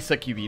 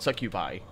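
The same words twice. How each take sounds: First: The word is said in a Latin style. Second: The word is said in an English style. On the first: "I say succubi ... it's the Latin way of pronouncing it" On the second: "not succubi"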